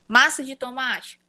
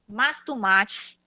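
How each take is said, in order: First: Every syllable of the phrase is pronounced fully. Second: The middle word is dropped or merged away.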